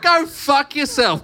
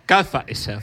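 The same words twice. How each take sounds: First: High, slow mock yell; retold angry comeback. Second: Mock Cockney accent, comic impression; Michael Caine. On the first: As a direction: fire back, drawing out each word. Retells own angry reply to lady. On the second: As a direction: put on a hammed London accent. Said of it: "in your Michael Caine accent".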